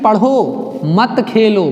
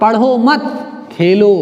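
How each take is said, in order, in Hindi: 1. विराम 'padho' के ठीक बाद आता है। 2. विराम 'mat' के ठीक बाद आता है। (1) "मतलब खेलना नहीं है" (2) "अर्थात पढ़ाई नहीं करनी, क्या करना है? खेलना है"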